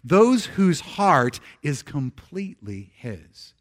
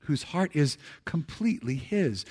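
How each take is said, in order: First: Slow, weighty reading of each word; reading aloud together. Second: A softer, hushed repeat of the line; soft echo. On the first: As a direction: lead the room through it word by word. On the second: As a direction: let it settle back quietly. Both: Shown as a demonstration. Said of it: "would you read these last words with me".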